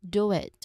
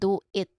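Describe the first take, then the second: First: A small W glide joins the two words. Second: The two words are said separately and clearly. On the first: "which has a small W that links do and it" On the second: "Instead of saying do it"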